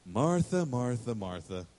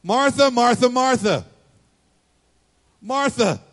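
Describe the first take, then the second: First: Name falling lower and softer each time; soothing repeated name; gentle calling. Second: High, loud, drawn-out repeated name; Brady-style exasperation. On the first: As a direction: let each Martha settle down tenderly. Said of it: "He just says". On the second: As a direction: call her name like a fed-up sibling. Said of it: "Jesus has a Brady moment". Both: Retold or imitated.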